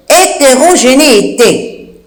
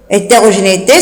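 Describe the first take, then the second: First: Spell-it-out pace on "hétérogénéité". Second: Said in the usual way. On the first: Shown as a demonstration. Dictates a hard word slowly.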